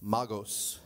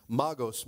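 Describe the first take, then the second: First: "Magos" pronounced MAH-gohs, falling. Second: "Magos" with open ah, falling at the end; "Magos" as MAH-gohs. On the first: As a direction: say "Magos" with open ah and long oh. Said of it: "Somebody say magos". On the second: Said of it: "You like that one better?". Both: Shown as a demonstration.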